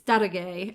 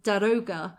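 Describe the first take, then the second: First: The word ends with an 'ah-geh' sound. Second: The word ends with an 'oh-gah' sound. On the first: The speaker calls it right. "and it's" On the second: The speaker calls it wrong. "I always used to pronounce the Persian's name as"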